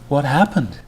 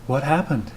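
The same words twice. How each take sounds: First: It is said in a clearly surprised voice. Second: It is said in a seductive, sultry voice. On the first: The speaker calls it right. "with more than a little surprise in her voice" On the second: The speaker calls it wrong. "Was that sufficiently sexy?"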